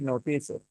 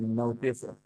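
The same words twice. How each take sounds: First: The stress is on the second syllable. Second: The stress is on the first syllable. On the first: The speaker calls it wrong. "I didn't say notice it" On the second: The speaker calls it right. "So no went a little bit higher on pitch"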